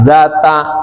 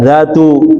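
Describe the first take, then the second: First: The word ends with an a vowel. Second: The word ends with a u vowel. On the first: The word describes the state of the noun. "Boleh juga dibaca fathah zata gitu" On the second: The word works as a description. "maka dibaca zatu gitu"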